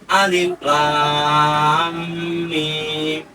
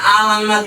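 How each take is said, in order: First: Each letter name is said separately. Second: The letters are merged into one word. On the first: The speaker calls it right. "huruf tapi bisa dibaca alif lam mim" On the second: The speaker calls it wrong. "tidak bacanya alam"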